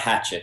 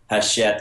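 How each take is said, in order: First: The name is pronounced like an English word. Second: The name is pronounced like a French word. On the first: The speaker calls it wrong. "It is not Hachette" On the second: The speaker calls it right. "It is Hachette. It's owned by a French"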